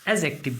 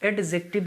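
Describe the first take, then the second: First: No d sound is pronounced before the j. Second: A d sound is pronounced before the j. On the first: The speaker calls it right. "एजेक्टिव बोलना चाहिए" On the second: The speaker calls it wrong. "कभी भी इसको एडजेक्टिव ना बोल करके"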